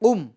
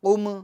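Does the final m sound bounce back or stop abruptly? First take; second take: stop; bounce. First: The final m stops abruptly without release. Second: The final m bounces with an echoing release. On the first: The speaker calls it right. "आवाज़ रुक जाएगी" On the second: The speaker calls it wrong. "जुम्बिश नहीं देंगे, आवाज़ नहीं लौटाएंगे"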